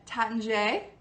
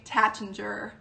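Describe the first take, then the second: First: The name is said with a French-style pronunciation. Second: The name is said with an American pronunciation. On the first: The speaker calls it right. "the correct way is to say it Taittinger" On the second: The speaker calls it wrong. "Most of us Americans say Taittinger, which is incorrect"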